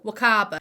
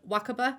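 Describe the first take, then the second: First: The vowels in the name are drawn out. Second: The vowels in the name are kept short. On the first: The speaker calls it wrong. "I pronounced this name wrong" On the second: The speaker calls it right. "it's actually pronounced Wakaba"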